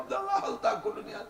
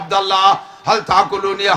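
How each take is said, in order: First: It is said in a thin, high voice. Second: It is said in a deep, thick voice. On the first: Small birds are speaking. "চিকুন চিকুন হয়ে গিয়ে" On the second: A large bird is speaking. "মোটা গলায় কয়ে"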